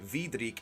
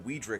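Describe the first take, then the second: First: The name begins with a V sound. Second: The name begins with a W sound. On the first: "I'd say Vidrik instead of Weidrich" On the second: "which of course begins with a W"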